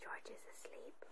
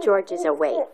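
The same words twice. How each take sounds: First: Hushed whisper for a sleeping character. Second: Louder, rising reading of George; lively reading. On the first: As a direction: whisper it so he stays asleep. Reading asleep page. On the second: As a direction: read it out brightly, awake. Reading awake page. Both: Real, not acted.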